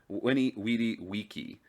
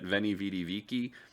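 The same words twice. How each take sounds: First: Each v is sounded like an English w. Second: Each v is sounded like an English v. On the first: This is how it was said in ancient times. "that is the proper pronunciation for the time period. The V would be pronounced as a W" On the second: This is how people usually say it today. "than you've normally thought of it"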